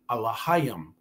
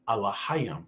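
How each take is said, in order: First: It begins with 'ah' and sounds like Allahayim. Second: It begins with 'ah' and sounds like Allahayim.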